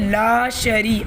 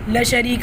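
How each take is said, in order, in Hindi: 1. पहला स्वर लंबा खींचा जाता है। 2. पहला स्वर छोटा काटा जाता है। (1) "अब यहाँ पे अलिफ मद्दा भी है और या मद्दा भी है" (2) "अगर हम इसे जल्दी से पढ़ लें"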